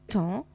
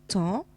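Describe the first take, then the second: The two takes are said the same way.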